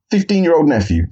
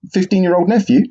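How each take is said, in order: First: Deflated. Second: Rising disbelief on nephew; incredulous question. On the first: Real, not acted. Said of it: "Same collar size, same body shape". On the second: Retold or imitated. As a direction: ask it in stunned disbelief. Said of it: "I said".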